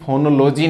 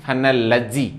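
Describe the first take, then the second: First: फोनोलॉजी said with o sounds; wrong fo-no-lo-gy. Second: फोनोलॉजी said with e sounds, ending lejy; right fe-ne-le-gy. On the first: (फोनोलॉजी ओ की ध्वनि वाला गलत उच्चारण) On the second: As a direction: say फोनोलॉजी as fenelejy. (फोनोलॉजी ए की ध्वनि वाला सही उच्चारण) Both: Shown as a demonstration. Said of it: "फोनोलॉजी नहीं".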